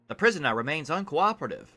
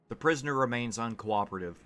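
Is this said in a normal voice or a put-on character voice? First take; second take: put-on; normal. First: It is read in a put-on character voice. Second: It is read in the speaker's ordinary voice. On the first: The speaker calls it right. "What would a conjurer sound like?" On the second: The speaker calls it wrong. "I'm not even doing a voice"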